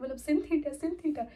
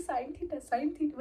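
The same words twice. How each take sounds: First: "sin theta" with sin as in sinner; mispronounced sin. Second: "sine theta" with sine as English sign; wrong pronunciation. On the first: She answers the teacher, saying "sin theta" with a short i. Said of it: "ma'am sin theta". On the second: Classmates teasing her slip, saying "sine theta" like fine. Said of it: "सब message करने लगे". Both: Retold or imitated.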